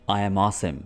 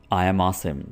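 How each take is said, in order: Both takes have the same delivery.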